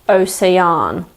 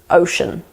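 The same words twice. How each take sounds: First: It sounds shaped by another language's pronunciation. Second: It is said with a standard English pronunciation. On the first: The speaker calls it wrong. "a way that they would probably say it in their language" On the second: The speaker calls it right. "Remember that this word is ocean"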